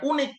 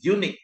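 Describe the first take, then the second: First: The word begins with a plain vowel sound. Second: The word begins with a consonant 'y' sound. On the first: The speaker calls it wrong. "bukan unik" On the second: The speaker calls it right. "tapi unik ... Kalau unik berarti di sini adalah konsonan"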